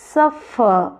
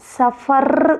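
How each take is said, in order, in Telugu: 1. Stress మొదటి syllable పై ఉంది. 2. Stress రెండవ సిలబుల్ పై ఉంది. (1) "ఇక్కడ వస్తుంది స్ట్రెస్, ఆర్ పైన రావట్లేదు" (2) "ఇది సఫర్ కాదు"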